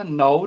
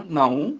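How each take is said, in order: First: ਨਾਉ said as oral nao; un-nasalised ਨਾਉ. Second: ਨਾਉ said as naon with nasal vowel; nasalised ਨਾਉ. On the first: Teacher showing the mistake, ਨਾਉ without a nasal ending. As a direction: keep the nose out of ਨਾਉ. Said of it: "ਨਾਉ ਨਹੀਂ ਬੋਲਣਾ". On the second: Teacher giving the correction, ਨਾਉ with nasal ending. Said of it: "ਨਾਉ ਬਿੰਦੀ ਨਾਲ ਉਚਾਰਨ". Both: Shown as a demonstration.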